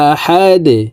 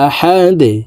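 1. শব্দটি ধাক্কা সহ থামা দাল দিয়ে শেষ হয়। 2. শব্দটি ধাক্কা সহ থামা দাল দিয়ে শেষ হয়।

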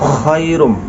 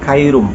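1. শব্দটি গলার kh ধ্বনি দিয়ে শুরু। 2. শব্দটি সাধারণ k ধ্বনি দিয়ে শুরু। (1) "বলতে হবে খায়রুম" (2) "খ উচ্চারণ করতে পারে না, কাফ অথবা ক উচ্চারণ করে"

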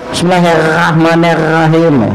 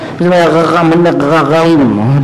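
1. Bunyi r-nya sedikit meleset, tapi masih seperti r. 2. Bunyi r-nya sepenuhnya seperti gh tenggorokan. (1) "Huruf ra-nya enggak pas" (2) "Jadi ghain"

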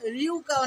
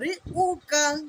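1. 'u' শুরু হয় 'y' glide দিয়ে। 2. 'u' শুরু হয় একটি তীক্ষ্ণ হামজা (glottal stop) দিয়ে। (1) "রিউকা অনেকে বলে থাকে, রিউকা নয়, ইয়া পেশ ইউ হয়" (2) "হামজা পেশ উ, উ ছুঁচালো ধারালো আওয়াজ হবে।"

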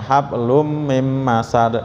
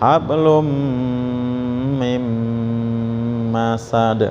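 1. Dengung hidung pada m dipotong pendek. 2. Dengung hidung pada m ditahan lama. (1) "karena udah apal akhirnya ... salah ya jadinya" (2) "itu idgham juga sama"

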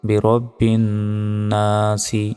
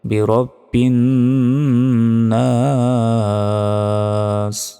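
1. শেষ শব্দটি একটি হ্রস্ব স্বরে শেষ হয়। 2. শেষ শব্দটি একটি হসন্ত ব্যঞ্জনে শেষ হয়।

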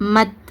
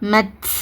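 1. கடைசி 't' ஒலிக்கு லேசான காற்று வெளியேறும். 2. கடைசி 't' ஒலிக்கு கனமான காற்று வெளியேறும். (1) "இந்த மாதிரி உச்சரிங்க" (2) "இந்த மாதிரி ஹெவியாக அந்த காற்றை வெளிப்படுத்தாதீங்க, அது தப்பு"

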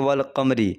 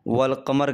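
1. शब्द छोटे 'i' स्वर पर खत्म होता है। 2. शब्द व्यंजन 'r' पर खत्म होता है। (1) "आप रुकने में ऐसे नहीं कर दीजिए कि वल कमरी" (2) "वल कमर कहेंगे"

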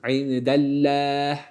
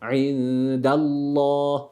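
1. Allah kelimesindeki L ince ve hafif duyuluyor. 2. Allah kelimesindeki L kalın ve koyu duyuluyor. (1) "İndellah değil. İnce olmuş olur" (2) "Lafzatullah kalın"

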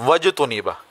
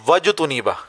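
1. 'wa' सीधे अगले अक्षर में जुड़ जाता है। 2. 'wa' सीधे अगले अक्षर में जुड़ जाता है।

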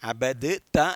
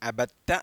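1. d ഉം t ഉം വേറിട്ട ശബ്ദങ്ങളായി ഉച്ചരിക്കുന്നു. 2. d ഇരട്ട t ശബ്ദമായി ലയിക്കുന്നു. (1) "അബദ് ത എന്ന് പറയേണ്ടതില്ല" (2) "ദാലും തായും ചേർത്തുകൊണ്ട് അബത്ത എന്ന് പറഞ്ഞാൽ മതി"

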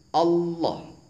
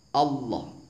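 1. Ujung lidah menyentuh di belakang gigi atas. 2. Ujung lidah menyentuh di belakang gigi atas.

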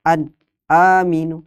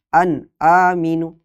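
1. Bunyi terputus setelah n. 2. Bunyi terputus setelah n.

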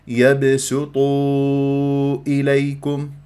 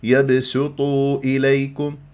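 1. تُمَدّ الحركة الأخيرة أربع أو خمس حركات. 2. تُمَدّ الحركة الأخيرة حركتين. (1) "وأربعة خمسة من الشاطبية" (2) "يمد حركتين"

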